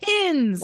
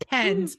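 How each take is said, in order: First: It is said with standard 'pins' pronunciation. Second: It is said with a Utah accent, like 'pens'.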